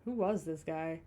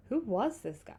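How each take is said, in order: First: Who WAS this guy, hitting was; stress on was. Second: WHO was this guy, who punched and falling; stress on who. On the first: Reading the line aloud, stress on was. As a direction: lean on the word was, not who. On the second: Rereading the line correctly, stress on who. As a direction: hit the word who, falling tune. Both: Shown as a demonstration. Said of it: "No, who was this guy?".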